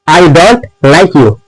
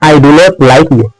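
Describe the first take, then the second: First: Do and not merge into one syllable, don't. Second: Do and not are said as two full words. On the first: The speaker calls it right. "प्रो बंदा इसको ऐसे बोलता है I डोंट" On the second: The speaker calls it wrong. "बिगिनर वाले ऐसे बोलते हैं"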